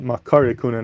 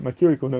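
First: The vowel after the k is 'a'. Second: The vowel after the k is 'i'. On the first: The speaker calls it right. "you should always call it Makari Kohuna" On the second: The speaker calls it wrong. "not Makiri Kohuna"

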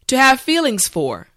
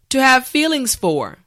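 The two takes are said the same way.

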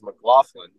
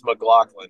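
First: The gh is not pronounced as a k. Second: The gh is pronounced as a k. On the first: This is how announcers usually say it. The speaker calls it wrong. "every announcer on the planet says McLaughlin" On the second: This is how the family says it. The speaker calls it right. "it is McLaughlin is correct"

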